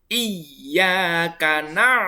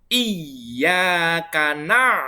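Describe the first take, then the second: The two takes are said the same way.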